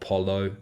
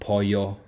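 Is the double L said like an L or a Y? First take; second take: L; Y. First: The double L sounds like an English L. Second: The double L sounds like an English Y. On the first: The speaker calls it wrong. "not not" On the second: The speaker calls it right. "if there's a double L, it's uh, a Y sound"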